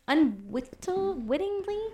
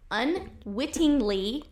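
First: Unwittingly stumbled, slow and unsure; stumbled word. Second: Unwittingly said slowly, syllable by syllable; careful pronunciation. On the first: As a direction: trip over unwittingly, rising doubtful. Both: Real, not acted. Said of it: "Try that again".

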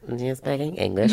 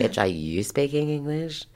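First: Lightly mocked higher-pitched questioning voice; silly Becky. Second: Higher-pitched, incredulous comeback; sassy retort. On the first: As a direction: imitate a clueless party guest's surprised question. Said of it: "silly little Becky with the good hair". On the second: Retold or imitated. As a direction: throw the question back with mock outrage. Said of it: "I'm like".

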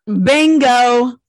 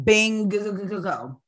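First: Loud, long-held "bingo"; emphatic agreement. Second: "Bingo" stretched with a stuttered middle; drawn-out agreement. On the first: Co-host seizing on the payment question, loud drawn-out bingo. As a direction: stretch "bingo" out loud and high. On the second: Co-host agreeing about the co-pastor, stuttered drawn-out Bingo. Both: Real, not acted.

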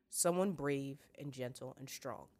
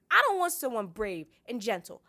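First: Slow, calm fatherly assurance; measured, reassuring tone at normal pitch; gentle father. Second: High, loud stubborn refusal; petulant girl protesting loudly; insistent. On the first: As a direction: list each virtue slowly and tenderly. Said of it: "her father said gently". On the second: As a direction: throw the words back indignantly. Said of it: "Sansa insisted". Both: A narrator's reading.

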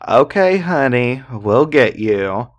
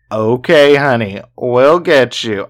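First: Sing-song taunting okay honey; mock the woman calling for help; super mocking tone. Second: Lighter retake of the taunt; mock her, louder on okay. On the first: Drunk man taunting a woman in a mocking tone. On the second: Drunk man mocking her cry for help, milder. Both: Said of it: "in this super mocking tone".

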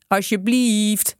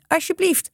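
First: Slow, stretched begging please; drawn-out pleading. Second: High, begging please; pleading. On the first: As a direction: drag the word out as you beg. Gang begs, dragging it out. (langgerekt smekend) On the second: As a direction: beg on a raised pitch. Gang begs the butcher. (smekend, heel hoog) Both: A narrator's reading.

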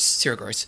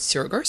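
First: Sarah stressed, falling to a firm close; settled name. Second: Gross asked with a rising tune, a touch higher; questioning name check. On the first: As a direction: confirm the name Sarah Gross flatly. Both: Shown as a demonstration. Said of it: "We've got an interview coming up with Sarah Gross".

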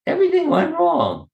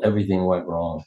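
First: "Everything went wrong." repeated with "Everything" pitched much higher and pressed; insistent repeat. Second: Said in the usual way. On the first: Retold or imitated. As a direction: insist on "Everything", high and emphatic. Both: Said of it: "did you hear what I just said?".

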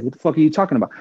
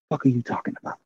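First: Said in the usual way. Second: Much softer, under the breath, as a private thought; inner thought, muttered. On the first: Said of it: "So I said". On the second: Retold or imitated. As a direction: say it to yourself, baffled, as if only in your head. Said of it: "in my mind, I was like".

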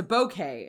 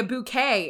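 First: Bouquet with "bo" first, "boh-KAY"; classmates' correction. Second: Bouquet with "boo" first, "boo-KAY"; own regional pronunciation. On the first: Retold or imitated. Imitating college classmates correcting her, bouquet said as "boh-KAY". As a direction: open the first vowel of bouquet to a long "oh". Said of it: "And they were like". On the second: Shown as a demonstration. Woman recalls her college speech, bouquet said as "boo-KAY". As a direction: round the first vowel of bouquet to an "oo". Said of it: "I would say".

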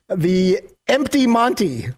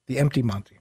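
First: Drawn-out announcer read, stress on "empty"; "The empty Monty" slow with weight on "empty"; slow headline delivery. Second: Softer throwaway repeat of "The empty Monty"; quiet repeat. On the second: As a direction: mutter "The empty Monty" again. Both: Shown as a demonstration. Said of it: "you don't like when I say it twice".

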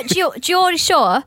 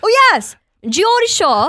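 First: Put-on slow, careful Geordie accent on "Geordie Shore"; Geordie accent try. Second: Put-on much higher and louder Geordie accent on "Geordie Shore". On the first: Host trying out a Geordie voice: slow Geordie accent. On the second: Host hamming her Geordie impression: loud Geordie accent. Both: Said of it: "let me talk like the Geordie Shore".

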